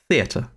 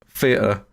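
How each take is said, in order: First: It is said in a posh Queen's English accent. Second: It is said in a South East London accent. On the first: "That is my Queen's English" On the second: "T H is turned into an F"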